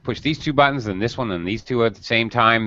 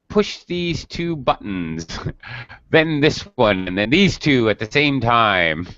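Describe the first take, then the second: First: It is spoken very quickly, words rushing together. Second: It is spoken at a normal, unhurried pace.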